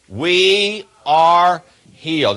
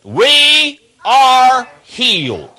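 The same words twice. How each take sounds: First: Slow, loud, each word weighted; said with conviction. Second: Very slow, much higher and louder proclamation, "We are healed" stretched out; say it like you believe it. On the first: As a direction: say it to the congregation firmly. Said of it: "I want you all to say it". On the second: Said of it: "Say it like you believe it". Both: Shown as a demonstration.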